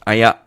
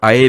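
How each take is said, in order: First: The final r becomes a throaty 'ak' sound. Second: The word ends without any final 'k' sound.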